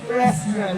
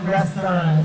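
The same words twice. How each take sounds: First: It is said in a put-on English accent. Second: It is said in a plain Filipino accent.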